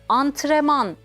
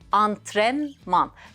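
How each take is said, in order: First: The n before the m is dropped. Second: The n before the m is pronounced. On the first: The speaker calls it wrong. "bir harf yutması söz konusu" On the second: The speaker calls it right. "Kelimenin doğrusu antrenman"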